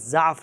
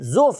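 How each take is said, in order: First: The first vowel is an open 'a' sound. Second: The first vowel is a rounded 'u' sound. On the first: "ज़ाद के ऊपर ज़बर है" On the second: "ज़ाद के ऊपर ज़म्मा है, पेश है"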